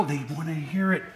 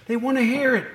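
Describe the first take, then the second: First: Said in the usual way. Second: HEAR stressed, higher; emphatic repeat. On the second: Shown as a demonstration.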